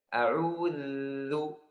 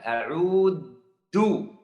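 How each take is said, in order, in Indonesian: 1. Huruf tengahnya bunyi th yang lembut dan bersuara. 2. Huruf tengahnya bunyi d yang keras. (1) "Ujung lidah harus keluar sampai kalau ada orang di depan saya bisa lihat" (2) "Seperti huruf dal"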